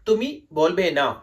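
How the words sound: It is said as a statement, falling.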